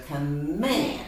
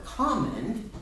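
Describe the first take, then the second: First: "command" stressed as com-MAND; stress on second syllable. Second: "command" wrongly stressed as COM-mand, first syllable high. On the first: Teacher showing student the right accent, "command" stressed on MAND. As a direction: lean on the last syllable of "command". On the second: Teacher showing student the wrong accent, "command" stressed on COM. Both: Shown as a demonstration. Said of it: "the accent makes it sound right".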